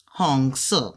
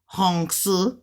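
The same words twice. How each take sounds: First: "Hong se" with "se" falling quickly; fourth-tone ending on SE. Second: "Hong se" said slowly with the pitch lifted at the end; rising demo of HONG SE. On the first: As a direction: drop the pitch sharply on "se" in "Hong se". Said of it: "coming down fast in the fourth tone". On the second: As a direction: leave "Hong se" hanging upward. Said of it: "'cause it's going up". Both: Shown as a demonstration.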